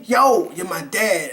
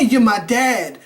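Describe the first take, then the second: First: Said slowly and deliberately; slow line. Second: Said in the usual way. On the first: Shown as a demonstration. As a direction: spell out the line slowly and clearly.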